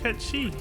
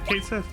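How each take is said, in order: First: The name ends in an 'ee' sound. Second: The name ends in a 'th' sound. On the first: This is the accurate version. "This is a cute pronunciation" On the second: This is the familiar version from childhood. "that's what I grew up with"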